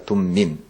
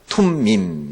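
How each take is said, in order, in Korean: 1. 예사소리예요. 거센소리가 아닌 d 비슷한 소리로 시작해요. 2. 거센소리예요. 숨을 강하게 내쉬는 t 소리로 시작해요. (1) "둠빔이 아니라 둠밈" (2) "원래 발음은 툼, 툼이죠. 툼에 가까워요"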